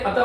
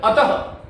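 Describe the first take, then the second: First: अतः flattened to "ata", no final breath; wrong visarga. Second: अतः ending in a breathed "ha", "ataha"; correct visarga. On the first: Teacher mimics Hindi speakers' error, अतः as "ata". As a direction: leave the "ha" off अतः. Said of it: "गलत है". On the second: Teacher corrects the Hindi habit, अतः as "ataha". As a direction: sound the final visarga in अतः. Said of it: "इस तरह से". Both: Shown as a demonstration.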